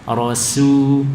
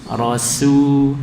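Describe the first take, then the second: No difference in how they are said.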